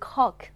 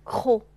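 First: A final k sound is pronounced at the end. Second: The word ends on a closed o, no k. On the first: The speaker calls it wrong. "不要发成cock 啊" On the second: The speaker calls it right. "这个词的c 不发音，然后因为是开音节了，所以o 就发成闭口的o 了"

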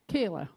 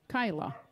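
First: The first vowel sounds like the vowel in 'day'. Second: The first vowel sounds like the vowel in 'sky'. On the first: This is how some other people say it. "Some people pronounce it Kayla" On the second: This is how it is said where the speaker is from. "I pronounce it Kyla"

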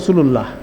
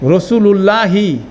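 First: The word ends on h with no vowel. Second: The word ends with a short i vowel. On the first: The speaker stops on the word. "এটাকে আমরা থেমে বলি" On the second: The word is read in full without stopping. "পুরা হরকত উচ্চারণ করলে কি হবে?"

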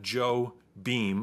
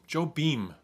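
First: The name sounds like English words Joe and Beam. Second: The name is said as one foreign-sounding word. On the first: The speaker calls it wrong. "It's not Joe Beam" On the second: The speaker calls it right.

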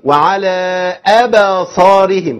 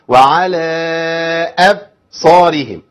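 First: A short vowel is added after the b. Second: The b is cut off abruptly without release. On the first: "كده انت بتفتح، كده انت بتعمل حركه" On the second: "هقطع الصوت... ما قلقلتش"

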